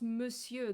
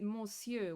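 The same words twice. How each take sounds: First: The word is said with its French sounds. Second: Every letter is sounded, including the O N. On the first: The speaker calls it right. "it's actually pronounced Monsieur" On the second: The speaker calls it wrong. "Paimon just pronounced it Monsieur"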